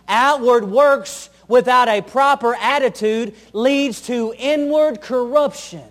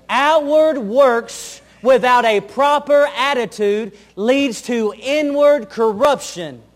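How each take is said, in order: First: Slow, every word weighted; preacher's deliberate emphasis; slow emphatic statement. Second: Even slower, pressing on "Outward" and "inward"; slower emphatic repeat. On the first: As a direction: lay it down slowly so it sinks in. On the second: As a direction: drive "Outward" home, then "inward corruption". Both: Shown as a demonstration. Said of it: "repeated for emphasis".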